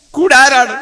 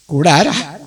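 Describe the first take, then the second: First: High, insistent repeated question; urgent question. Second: Said in the usual way. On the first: Acted. Abu Bakr asks the Prophet who will accompany him, urgently. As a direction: press for the answer in a raised voice.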